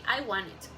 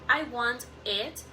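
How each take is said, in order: First: The words run together smoothly without breaks. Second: Each word is said clearly and separately. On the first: "native speakers often say" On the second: "very clearly and separately"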